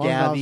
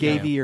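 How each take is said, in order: First: The first vowel is a short A. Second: The first vowel is a long A.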